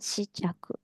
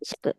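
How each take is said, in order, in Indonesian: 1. Vokal setelah 'sh' terdengar, diucapkan pelan. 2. Vokal setelah 'sh' dihilangkan, diucapkan cepat. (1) "kalau dibaca pelan-pelan" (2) "Kayak nggak kedengeran ya. Si-nya tuh nggak kedengeran"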